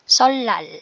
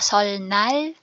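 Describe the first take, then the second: First: The middle consonants sound as a long L. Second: The middle consonants sound as N then L. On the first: The speaker calls it right. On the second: The speaker calls it wrong. "So hindi siya solnal"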